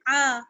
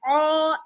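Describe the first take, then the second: First: The vowel is light, with spread lips. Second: The vowel is heavy, with rounded lips. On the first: The speaker calls it right. "बल्कि बारीक पढ़ना है" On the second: The speaker calls it wrong. "आइन को मोटा नहीं पढ़ना है ... औ ऐसे नहीं पढ़ना है"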